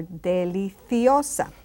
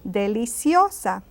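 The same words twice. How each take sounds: First: Deliciosa with TH in "cio"; Castilian TH. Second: Deliciosa with an S in "cio". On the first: Teacher giving the other deliciosa, with TH. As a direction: say deliciosa the Spain way, TH for C. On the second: Teacher giving the feminine deliciosa, with S. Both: Shown as a demonstration. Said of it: "You can also say".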